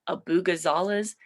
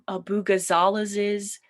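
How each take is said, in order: First: The name ends with a single S sound. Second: The name ends with an extra added S syllable. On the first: "will just add an S" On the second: "they'll add another S sound"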